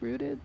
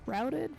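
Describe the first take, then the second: First: The vowel sounds like the one in 'boot'. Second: The vowel sounds like the one in 'out'. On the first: The speaker calls it right. "It should be rooted" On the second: The speaker calls it wrong. "Not routed"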